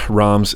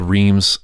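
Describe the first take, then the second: First: "Reims" said to rhyme roughly with "bronze"; French pronunciation. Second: "Reims" said as English "reams"; spelling pronunciation. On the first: Host giving the city's French name, French pronunciation. Shows pronunciation against the spelling. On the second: Host reading the city's name as spelled, English pronunciation. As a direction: read "Reims" as spelled, with a long ee. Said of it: "it looks like it's spelled Reims". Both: Shown as a demonstration.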